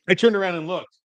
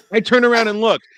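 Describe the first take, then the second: First: Higher voice, mildly worked up; mild exasperation. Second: High, loud comic exasperation; louder exasperated repeat. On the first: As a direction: retell it with raised pitch. Retold turn, first take. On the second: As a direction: push it higher and louder, nearly laughing. Same line repeated, escalating. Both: Retold or imitated.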